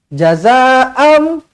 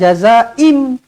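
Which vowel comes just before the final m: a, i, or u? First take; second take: a; i. First: The last vowel before m is a. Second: The last vowel before m is i. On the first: The speaker calls it right. "Jazaa'am bukan jazaa'um" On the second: The speaker calls it wrong. "bukan jazaa'im"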